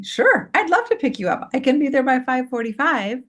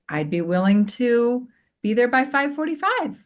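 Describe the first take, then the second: First: High, sweetly obliging voice; very nice, kind. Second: Higher, gently willing offer; nice, kind tone. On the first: Mom agreeing to pick up her son, very kindly. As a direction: agree gladly, with a high lilting pitch. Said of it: "very nicely, very kindly". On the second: Mom answering her teenage son's pickup request, nicely. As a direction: offer it kindly in a lifted voice. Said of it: "notice even in my tone of voice". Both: Shown as a demonstration.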